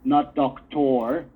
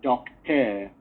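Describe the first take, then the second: First: The last vowel is a full, clear vowel. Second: The last vowel is a reduced schwa. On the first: The speaker calls it wrong. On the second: The speaker calls it right. "but doctor, because we favor the schwa"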